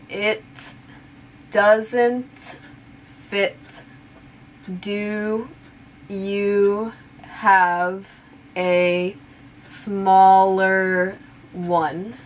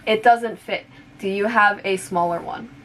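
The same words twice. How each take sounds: First: The sentence is spoken slowly. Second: The sentence is spoken at natural speed. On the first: "I'll say it slowly first" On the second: "one more time at normal speed"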